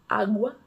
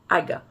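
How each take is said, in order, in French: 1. Le u après g se prononce comme un w. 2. Le u après g est muet.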